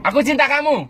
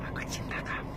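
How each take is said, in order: First: Much higher "Aku cinta kamu". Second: Soft whisper "Aku cinta kamu"; whispered love. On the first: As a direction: sing out "Aku" up high. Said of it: "Nada tinggi". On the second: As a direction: breathe it into their ear. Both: Shown as a demonstration.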